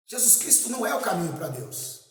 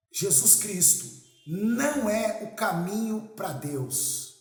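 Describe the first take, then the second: First: Said in the usual way. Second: "não" drawn out long and raised; slow statement leaning hard on "não"; emphatic NÃO. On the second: Real, not acted. Preacher opening with a provocative claim about Jesus, emphatic drawn-out "não".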